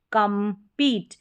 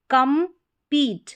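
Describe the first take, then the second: First: Said in the usual way. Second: compete slowly as kam, pause, peet; slow, spaced compete for learners; split into syllables. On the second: Shown as a demonstration. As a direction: sound out compete in two parts, first one higher. Teacher splits word, then blends.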